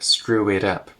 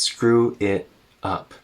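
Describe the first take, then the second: First: The T in 'it' is a quick tap. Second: The T in 'it' is a glottal stop. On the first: "Normally we would say it up" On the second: "with a glottal stop instead of a tap"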